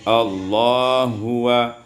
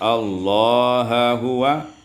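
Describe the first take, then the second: First: The two h sounds merge into one. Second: A vowel separates the two h sounds.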